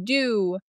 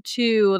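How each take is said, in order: First: The word begins with a d sound. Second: The word begins with a t sound. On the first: "their T's sometimes are pronounced as D's" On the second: "the number two"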